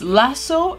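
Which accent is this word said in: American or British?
American. The word is said with an American pronunciation. "in American pronunciation it's lasso"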